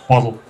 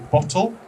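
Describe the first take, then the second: First: It is said with an American pronunciation. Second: It is said with a British pronunciation.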